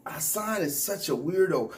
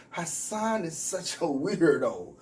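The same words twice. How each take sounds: First: Said in the usual way. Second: "Hassan is such a weirdo" said slower, leaning on "Hassan"; slower emphatic "Hassan is such a weirdo"; slower emphatic repeat. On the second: Shown as a demonstration. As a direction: drag it out for emphasis. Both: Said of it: "You gotta say it twice".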